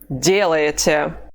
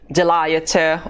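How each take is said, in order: First: The stress falls on the first syllable. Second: The stress falls on a later syllable. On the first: The speaker calls it right. "The stress mark is over the first vowel" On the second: The speaker calls it wrong. "we cannot say делаете"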